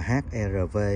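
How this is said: The letters are read with Vietnamese letter names. This is how Vietnamese speakers say it. "Tiếng Việt mình đọc là"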